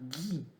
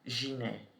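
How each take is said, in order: First: The first consonant is a hard g sound. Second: The first consonant is a soft j-like sound. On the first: The speaker calls it right. "eu vou falar Gui" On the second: The speaker calls it wrong. "eu não vou falar Giné"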